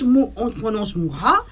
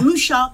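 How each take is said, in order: First: The name is said the Czech way. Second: The name is said the French way. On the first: "on prononce Moura" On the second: "quand on le voit écrit, c'est marqué Moucha"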